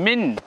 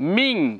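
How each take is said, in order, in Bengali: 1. শেষের n ধ্বনিটি স্পষ্ট ও পূর্ণভাবে উচ্চারিত হয়। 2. শেষের n ধ্বনিটি প্রচ্ছন্ন ও অনুনাসিক। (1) "স্পষ্ট নয়, স্পষ্ট মিন এমন নয়" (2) "নাকের মধ্যে আওয়াজ যাবে মিং"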